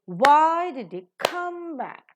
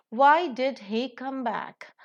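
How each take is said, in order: First: "why", "come", "back" long and high, "did he" squeezed; stress on why, come, back. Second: Said in the usual way. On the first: Shown as a demonstration. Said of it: "is accented". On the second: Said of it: "and back is an adverb".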